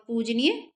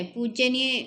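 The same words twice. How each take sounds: First: पूजनीय as puj-niye, no y after j; correct form पूजनीय. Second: पूज्यनीय with an extra ye, puj-ye-niye; wrong form पूज्यनीय. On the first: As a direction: go straight from j to n in पूजनीय. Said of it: "पूजनीय ठीक है". (पूजनीय, ज के बाद बिना य के) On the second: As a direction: put jye before niye in पूज्यनीय. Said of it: "पूज्यनीय गलत है". (पूज्यनीय, ज के बाद य के साथ) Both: Shown as a demonstration.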